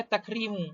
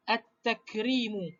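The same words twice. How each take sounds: First: Said in the usual way. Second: Slow "at-takrimu" with a held double T; lam dropped, ta doubled. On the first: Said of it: "asal perkataan dia tak ada alif lam". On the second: Shown as a demonstration. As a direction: say "at-takrimu" with no L, straight into the t. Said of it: "terus masuk kepada huruf yang ketiga".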